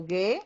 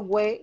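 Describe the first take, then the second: First: "gue" as hard g straight into e; silent U in "gue". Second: "güe" with a clear w glide after the g; U sounded in "güe". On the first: Teacher shows students the right reading, "gue" with silent U. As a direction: say "gue" with no w glide, U mute. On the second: Teacher shows the unwanted reading, "güe" with sounded U. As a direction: say "güe" like gw plus e, U pronounced. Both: Shown as a demonstration. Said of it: "yo no la estoy pronunciando".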